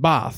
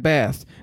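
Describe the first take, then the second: First: The word is said with a British accent. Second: The word is said with an American accent. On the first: The character is being taught the proper English way. The speaker calls it right. "no, it's pronounced bath. Like, you're going to say it like this. Say it like a proper English person" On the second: The character is slipping out of her assumed accent. The speaker calls it wrong. "she's slipping up some of her words"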